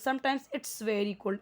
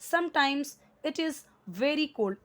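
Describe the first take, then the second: First: It is is shortened to one syllable. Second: It is is said as two full words.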